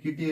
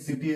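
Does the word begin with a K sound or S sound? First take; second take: K sound; S sound. First: The word begins with a hard K sound. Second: The word begins with a soft S sound. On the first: The speaker calls it wrong. "ಇಲ್ಲಿ ಕಿಟಿ ಅನ್ನಿ. ತಪ್ಪು" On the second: The speaker calls it right. "ಇಲ್ಲಿ ಸಿಟಿ ಅಂತೀರಿ"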